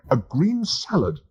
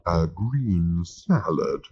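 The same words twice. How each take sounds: First: "green salad" slow, higher and firm; each word of "A green salad" leaned on, pitched up; emphatic. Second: Disapproving. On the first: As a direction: plant "A green salad" like a final order. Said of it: "said Arthur emphatically". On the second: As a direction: drag out "A green salad" in mild disdain. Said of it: "rolling his eyes disapprovingly". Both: Acted.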